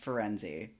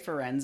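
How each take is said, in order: First: The name ends with a pronounced final vowel. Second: The name ends without a final vowel sound. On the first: "which is pronounced Firenze" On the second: "Do they say Ferenz in the movies?"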